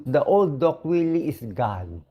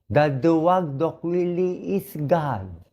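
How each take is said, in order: First: Said in the usual way. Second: Slow, with duwag leaned on and falling; stress on duwag. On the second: Real, not acted. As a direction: dwell on duwag, drawing the line out.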